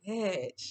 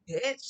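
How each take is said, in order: First: It sounds sad and upset. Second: It sounds indignant and challenging. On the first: The speaker is feeling sorrowful. "like oh my goodness, I'm so sad" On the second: The speaker feels disrespected and is challenging someone. "like who you talking to"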